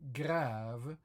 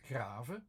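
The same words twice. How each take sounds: First: Grave louder, with a hugely stretched "ah"; emphatic French grave, long swelling "ah". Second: Grave as "grah-ve" with a shorter "ah"; two-beat grave, "ah" kept short. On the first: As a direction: draw out grave as "graaah-ve". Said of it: "like in French". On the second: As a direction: say grave without stretching the vowel. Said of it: "if I only pronounce it like". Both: Shown as a demonstration.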